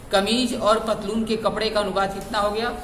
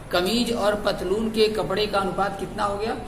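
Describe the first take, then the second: The two takes are said the same way.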